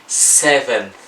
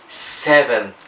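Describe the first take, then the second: The two takes are said the same way.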